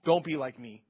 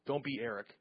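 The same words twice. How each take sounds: First: Said in the usual way. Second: Softer, lower, throwaway line about "Eric"; half-swallowed jab at himself; quiet self-mocking aside. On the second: Real, not acted. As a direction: drop it under your breath like a joke on yourself.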